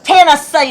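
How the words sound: It is said in an angry, scolding way. The speaker is mad at someone. "if you're mad at somebody"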